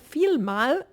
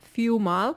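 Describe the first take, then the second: First: The middle consonant is a clear L sound. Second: The middle consonant is replaced by a U sound. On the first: "anstatt vielmal" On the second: "sag vielmal, die sagen auch oft anstatt L, U"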